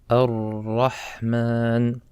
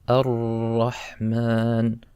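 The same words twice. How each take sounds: No difference in how they are said.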